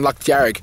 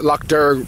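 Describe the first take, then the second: First: It is said with the Irish Gaelic pronunciation. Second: It is said with an anglicized pronunciation. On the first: "the Gaelic for red is Jarrig" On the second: "with a bit of an ang, it's it's it's an Anglo accent"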